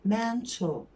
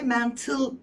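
First: The last syllable is rounded with a faint L. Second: The last syllable is plain with a clear L. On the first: The speaker calls it right. "Ağzını böyle U yapacaksın son hecede" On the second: The speaker calls it wrong. "Mental değil"

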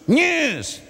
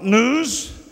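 First: The word is said in a nasal Australian accent. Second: The word is said in a plain, non-Australian accent. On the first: The speaker calls it right. "Talk Australian" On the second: The speaker calls it wrong. "Not news"

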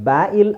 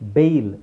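First: The vowel is split into two separate sounds. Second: The vowel is one long 'ay' sound. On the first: The speaker calls it wrong. "But ಬ್ಯಾ ಇಲ್ ಅಲ್ಲ" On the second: The speaker calls it right. "ಅದು ಬೇಯಿಲ್"

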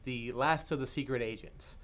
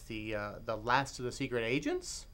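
First: It is said as a plain falling statement. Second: It is said as a rising question. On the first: The speaker calls it wrong. "Actually, I'm saying that wrong" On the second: The speaker calls it right. "There's a question mark at the end"

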